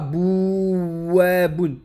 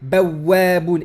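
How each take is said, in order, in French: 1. La première syllabe a une voyelle 'oo'. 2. La première syllabe a une voyelle 'a'. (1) "et non pas bouwabun. Non" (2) "Bawwabun et non pas bouwabun"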